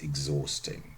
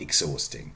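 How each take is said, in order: First: The x is said as voiced gz. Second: The x is said as voiceless ks. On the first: The speaker calls it right. "It's exhausting" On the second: The speaker calls it wrong. "Not exhausting"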